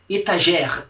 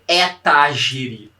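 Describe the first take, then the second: First: It is read with native French sound habits. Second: It is read with Brazilian Portuguese sound habits. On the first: The speaker calls it right. "A gente lê etagère" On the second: The speaker calls it wrong. "aqui a gente não lê etagere"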